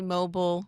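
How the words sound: The last syllable is shortened, like 'bull'. This is how the speaker's own country says it. "we say mobile. We shorten it"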